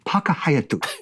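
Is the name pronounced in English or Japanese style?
Japanese. The name is said with Japanese pronunciation.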